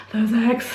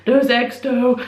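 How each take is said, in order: First: Said in the usual way. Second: Louder, savouring those eggs; a foodie's happy sigh at the memory of eggs; relishing. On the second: Real, not acted. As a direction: dwell on eggs like a treat. Fondly recalling the breakfast.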